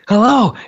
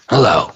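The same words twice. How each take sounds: First: It is said warmly, as a real welcome. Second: It is said coldly, without welcome.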